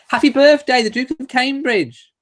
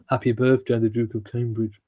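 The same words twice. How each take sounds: First: It is said in an excited, happy tone. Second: It is said in a flat, plain tone.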